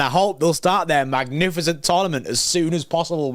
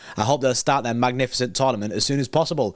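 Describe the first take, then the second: First: It is said in a mocking, sarcastic tone. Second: It is read out in a plain, neutral tone.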